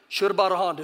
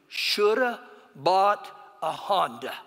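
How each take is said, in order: First: It is said very fast. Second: It is said at a normal speed.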